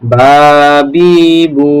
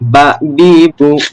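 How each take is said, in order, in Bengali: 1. স্বরধ্বনিগুলো টেনে পড়া হয় এবং দীর্ঘ। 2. স্বরধ্বনিগুলো হ্রস্ব, টেনে পড়া হয় না। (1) "টান দিয়ে পড়তে হচ্ছে" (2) "যদি মাদের হরফ না হয় এমনিতে হতো"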